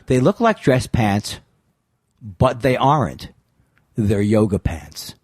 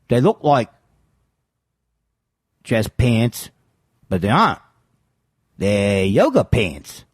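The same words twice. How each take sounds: First: It is said in the speaker's normal accent. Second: It is said in an imitated foreign-sounding accent.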